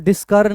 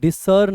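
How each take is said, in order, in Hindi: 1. बीच का व्यंजन 'sk' की आवाज़ है। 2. बीच का व्यंजन सादा 's' की आवाज़ है। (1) "इसको डिस्कर्न नहीं पढ़ते हैं" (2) "डिसर्न हम पढ़ते हैं इसको"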